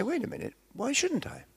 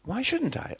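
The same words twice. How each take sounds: First: High, indignant "why shouldn't I?"; raised, defiant question. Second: High, stressing "shouldn't" in "Why shouldn't I?"; repeated defiant question. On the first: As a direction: push back, pitched up high. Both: Shown as a demonstration. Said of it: "I want you to say".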